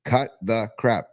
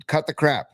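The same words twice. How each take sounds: First: "Cut the crap" slow, each word set apart; slow, deliberate "Cut the crap"; word-by-word emphasis. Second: Said in the usual way. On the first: Real, not acted. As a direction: space out "Cut... the... crap" firmly. Repeats it word by word.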